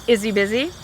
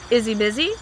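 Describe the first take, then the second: Both takes have the same delivery.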